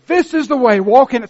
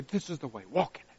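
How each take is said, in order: First: High, loud declaration; proclaimed voice. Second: Hushed, soft voice of God; whisper. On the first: Pastor proclaiming God's guidance, loud and high. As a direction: call out the way boldly. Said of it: "this small voice says". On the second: God whispering guidance to the listener, hushed. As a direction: breathe it like a secret. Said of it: "he whispers". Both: Retold or imitated.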